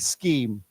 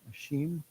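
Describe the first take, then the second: First: The word begins with a K sound. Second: The word begins with an SH sound. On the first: This is the American way. "in America, we always say scheme" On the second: This is how some British speakers say it. "I think I've heard Brits"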